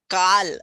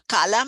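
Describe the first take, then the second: First: The word ends on the 'l' sound. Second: The word ends with an 'a' vowel. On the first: It means time. The speaker calls it right. "it should be pronounced as Kal" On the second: The speaker calls it wrong.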